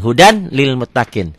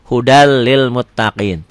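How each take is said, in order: First: "Hudan lil" with the N kept; N as spelled. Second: Slow "Hudal lil", doubled L with no nasal hold; merged without holding. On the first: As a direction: sound out the N ending "Hudan". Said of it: "coba tulis dengan latin". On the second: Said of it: "tanpa ditahan". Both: Shown as a demonstration.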